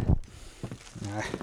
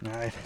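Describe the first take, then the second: First: Breathy hushed whisper. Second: Said in the usual way. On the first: Acted. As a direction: drop to a whisper. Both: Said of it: "whispered repeat".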